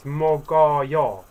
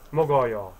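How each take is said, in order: First: "Mogoyo" drawn out, syllable by syllable, louder; slow pronunciation demo. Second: Said in the usual way. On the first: Shown as a demonstration. Teacher showing learners how we say it, slow "Mogoyo". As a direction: stretch each syllable of "Mogoyo" clearly. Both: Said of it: "So we say like this".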